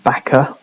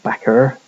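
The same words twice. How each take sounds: First: It ends in a plain vowel with no r. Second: It ends in an r-coloured er sound.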